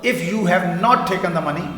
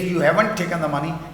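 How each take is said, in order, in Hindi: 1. 'Have not' दो पूरे शब्दों की तरह बोला जाता है। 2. 'Have not' को छोटा करके एक शब्द में बोला जाता है।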